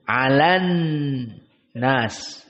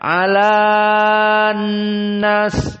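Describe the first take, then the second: First: The vowel before the n is kept short. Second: The vowel before the n is drawn out long. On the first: The speaker calls it right. "hanya dibaca langsung masuk kepada nun" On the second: The speaker calls it wrong. "Tidak dibaca alan nas"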